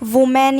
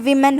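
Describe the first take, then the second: First: The first vowel sounds like 'oo'. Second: The first vowel sounds like 'i'. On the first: The speaker calls it wrong. "ना कि वुमेन" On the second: The speaker calls it right. "विमेन होता है"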